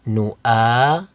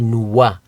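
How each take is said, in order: First: A glottal stop follows the first vowel. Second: A w sound follows the first vowel. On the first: The speaker calls it right. "do not read the Waw. Read the Hamza" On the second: The speaker calls it wrong. "Please do not say nuwa"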